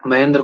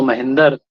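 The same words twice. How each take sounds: First: Said in the usual way. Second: "महेंद्र" loosened to "mahindar"; lazy mispronunciation. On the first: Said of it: "प्रयत्न नहीं करना चाहते". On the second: Retold or imitated. Teacher showing effort-saving speech, "महेंद्र" said as "mahindar". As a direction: split the final cluster of "महेंद्र" into "-dar", with i for e. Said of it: "अशुद्ध उच्चारण करते हैं उसका".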